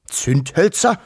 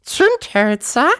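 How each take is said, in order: First: Puzzled rising question, higher pitched; grumbling father. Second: Very high, slow squeaky question; piepsende Großmutter. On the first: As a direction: query it as a mildly grumbling father. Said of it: "brummte der Wawuschel-Vater". (fragend brummelnder Vater) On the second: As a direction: squeak the word out like a baffled granny. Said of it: "piepste die Wawuschel-Großmutter". (hohe, gedehnte Piepsstimme) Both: A narrator's reading.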